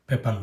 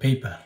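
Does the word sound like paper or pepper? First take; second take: pepper; paper. First: It is said like the English word pepper. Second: It is said like the English word paper. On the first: The speaker calls it wrong. "পেপার নয়" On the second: The speaker calls it right. "সঠিক উচ্চারণ হইল পেপার"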